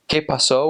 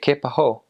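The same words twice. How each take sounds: First: The s is said as a clear hiss. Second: The s is replaced by breathy air.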